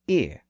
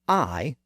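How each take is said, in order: First: The vowel is a short "ih" sound. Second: The vowel is a gliding "eye" sound. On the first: "the short I sound" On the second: "the long I sound"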